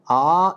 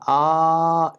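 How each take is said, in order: First: The vowel is held about twice as long. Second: The vowel is drawn out about three times. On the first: "A is Dirgha" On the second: "A is Plata"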